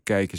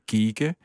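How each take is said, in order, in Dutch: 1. De klinker is de standaard Nederlandse ei-klank. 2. De klinker is een dialectale ie-klank. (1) "Tegen kijken" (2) "zei ik kieken"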